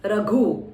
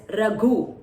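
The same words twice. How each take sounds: First: "Raghu" with aspirated gh; press the gha. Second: "Raghu" with breathy gh pressed; press the gha. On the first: Teacher repeating the word so students highlight gh. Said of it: "You can highlight". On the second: Teacher showing students where to press gha. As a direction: lean on the aspirated gh in "Raghu". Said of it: "Gha press". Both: Shown as a demonstration.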